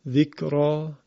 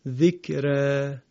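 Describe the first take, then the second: First: The final vowel is an open a sound. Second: The final vowel lies between a and e. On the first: "یکی فتح ذکرا" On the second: "یکی هم ذکره میشود اماله صغرا"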